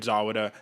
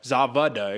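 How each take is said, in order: First: The middle consonant is a W sound. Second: The middle consonant is a V sound. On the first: The speaker calls it wrong. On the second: The speaker calls it right.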